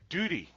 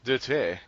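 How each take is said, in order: First: It is said in an American accent. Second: It is said in a British accent. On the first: "So I could say duty" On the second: "But if it's British, I say"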